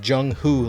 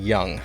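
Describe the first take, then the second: First: The name starts with a J sound. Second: The name starts with a Y sound. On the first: The speaker calls it right. "Nope, it's Jung-Hoo Lee" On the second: The speaker calls it wrong. "I was saying Young"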